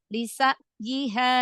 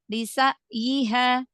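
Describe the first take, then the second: First: The middle consonant is an abrupt glottal catch. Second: The same.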